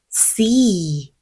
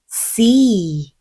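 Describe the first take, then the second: First: The vowel is drawn out long. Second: The same.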